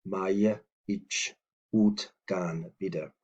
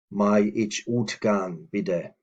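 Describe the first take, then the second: First: "May", "ich", "utgan bitte" slowly separated; slow teaching take, "May ich / utgan bitte"; word by word. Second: Said in the usual way. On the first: Shown as a demonstration. Word-by-word repeat for learners.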